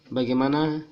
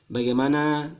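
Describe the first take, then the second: No difference in how they are said.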